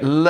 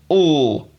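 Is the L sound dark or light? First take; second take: light; dark. First: A clear light L with the tongue neutral. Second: A dark L with the tongue back raised. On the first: "L with the tongue in a neutral position" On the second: "all with the tongue raised towards the velum"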